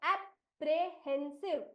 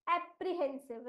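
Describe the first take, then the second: First: एप्रीहेंसिव slow, split into "ap-re-hen-siv"; syllable by syllable. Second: Said in the usual way. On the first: Shown as a demonstration. Teacher builds the word for pupils, syllable by syllable. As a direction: sound out एप्रीहेंसिव slowly in chunks. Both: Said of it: "इस शब्द का उच्चारण क्या करोगे".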